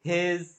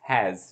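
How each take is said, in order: First: The vowel sounds like the e in bed. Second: The vowel sounds like the a in cat. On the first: The speaker calls it wrong. "এগুলোকে হেজ, দেট এরকম অনেকেই pronounce করতে দেখি আমি" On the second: The speaker calls it right. "It's হ্যাজ totally, মানে অ্যা অ্যা উচ্চারণ করবে"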